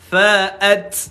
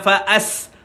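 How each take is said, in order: First: It ends in a t released with breath. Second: It ends in a hissing s sound. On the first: The speaker calls it right. "Fa'at fa'at angin keluar" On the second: The speaker calls it wrong. "jangan fa'as as as ah, salah"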